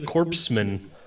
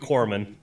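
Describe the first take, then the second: First: The first part is said like the word corpse. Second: The first part is said like the word core. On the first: The speaker calls it wrong. "That's how I like pronouncing that word" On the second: The speaker calls it right. "I know it's supposed to be corpsman"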